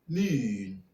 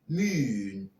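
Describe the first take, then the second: First: The vowel is made further forward in the mouth. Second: The same.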